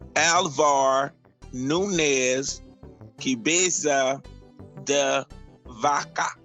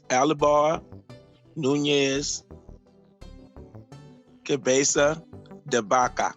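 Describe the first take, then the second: First: The name is said with anglicized English sounds. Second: The name is said with its original Spanish sounds. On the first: "how we probably say it" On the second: "That's how you would say it properly"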